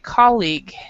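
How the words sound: It is said American style, stressing the first part. "in American English, we actually stress the first part. We say colleague"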